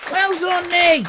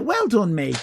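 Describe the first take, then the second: First: High, pleased with yourself; mock proud pat on the back; mock self-praise. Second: Said in the usual way. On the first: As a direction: congratulate yourself in a higher voice.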